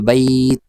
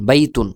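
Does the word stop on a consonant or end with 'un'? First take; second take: consonant; un ending. First: It stops on the consonant, vowel held longer. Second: It ends with a full 'un' ending. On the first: The reader stops at this word. "যদি আপনি ওয়াকফ করেন তাহলে হবে" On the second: Reading continues without a stop. "উচ্চারণ করলে এইভাবে"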